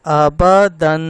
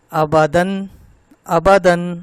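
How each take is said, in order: First: آبادن loud and measured, long humming final ن; correct lengthened tanween. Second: آبادن with دن cut short, louder; don't hold the final ن of آبادن; final nasal too short. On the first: Teacher demonstrates right reading, final ن of آبادن held long. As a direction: keep آ and با even, hold دن long. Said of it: "ٹھیک کیسے پڑھنا ہے اب وہ سنیں". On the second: Teacher shows third mistake, دن in آبادن not lengthened. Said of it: "لمبا نہیں کر رہے اس کو". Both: Shown as a demonstration.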